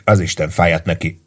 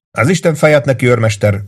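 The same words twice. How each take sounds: First: Said in the usual way. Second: Bursting out, pitched well higher; angry outburst. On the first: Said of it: "mondta Ross főhadnagy". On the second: Acted. Lieutenant swears at the sergeant in frustration, bursting out. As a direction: explode with the curse at the sergeant. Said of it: "robbant ki".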